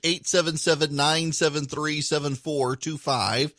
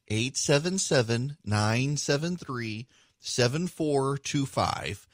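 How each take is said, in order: First: The number is said quickly in one run. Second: The number is said slowly in short groups.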